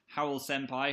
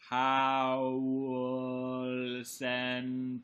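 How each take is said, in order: First: The name is said at normal speed. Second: The name is said slowly and drawn out.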